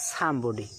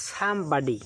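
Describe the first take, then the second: First: Somebody the British way, sum-bo-dee, lower pitch; British pronunciation. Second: Somebody with American vowels, sum-bah-dee; American pronunciation. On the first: Teacher shows the British way to say somebody. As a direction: say somebody the British way, rounded middle vowel. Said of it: "British pronunciation হচ্ছে". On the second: Teacher shows the American way to say somebody. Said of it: "American উচ্চারণ হচ্ছে". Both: Shown as a demonstration.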